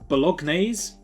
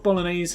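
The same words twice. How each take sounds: First: The G in the word is pronounced. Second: The G in the word is silent.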